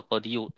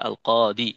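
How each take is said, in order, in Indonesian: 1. Kata itu berakhir dengan suku kata 'iyu' yang penuh. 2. Kata itu berakhir dengan bunyi 'i' panjang. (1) "asalnya al-qadiyu" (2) "tapi dibaca al-qadi"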